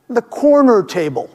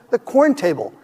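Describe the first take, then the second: First: The word corner is said with two syllables. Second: The word corner is cut to one syllable. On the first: The speaker calls it right. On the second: The speaker calls it wrong.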